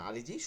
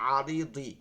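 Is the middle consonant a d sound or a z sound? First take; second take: z sound; d sound. First: The middle consonant is a z sound. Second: The middle consonant is a d sound. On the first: "আপনি এখানে পড়তে পারেন আরিজি" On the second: "মূলত আরিদি"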